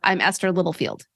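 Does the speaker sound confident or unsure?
confident. The self-introduction sounds confident. The speaker calls it right. "you will sound more confident when you are introducing yourself"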